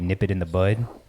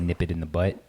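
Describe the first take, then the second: First: The last word ends with a d sound. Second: The last word ends with a t sound. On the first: The speaker calls it right. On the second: The speaker calls it wrong. "People say nip it in the butt"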